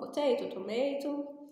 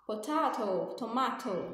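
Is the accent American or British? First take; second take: American; British. First: It is said in an American accent. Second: It is said in a British accent.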